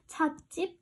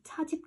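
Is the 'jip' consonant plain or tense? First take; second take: tense; plain. First: The second syllable starts with a tense jj. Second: The second syllable starts with a plain j. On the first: The speaker calls it right. "이렇게 발음하는구나. 된소리로 발음 나니까" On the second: The speaker calls it wrong. "이렇게 얘기하지 않죠"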